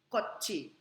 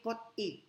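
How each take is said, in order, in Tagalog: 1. Ang gitnang katinig ay tunog CH. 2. Ang gitnang katinig ay tunog T. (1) "Kung hindi, kotchi" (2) "ang basa dito ay hindi kot-i"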